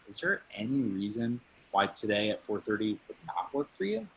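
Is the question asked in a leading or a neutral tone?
leading. It is asked gently, leading toward a no. The speaker calls it right.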